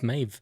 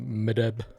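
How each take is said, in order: First: The name has one syllable ending in v. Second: The name has two syllables ending in b. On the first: The speaker calls it right. "it's Maeve" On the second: The speaker calls it wrong. "I'd have said something like Medeb"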